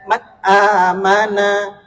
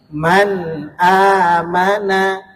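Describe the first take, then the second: First: The n sound is blurred, not clearly articulated. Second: The n sound is clearly articulated, lightly nasal. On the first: The speaker calls it wrong. "enggak dibaca man amana" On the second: The speaker calls it right. "tapi man amana, dibaca jelas"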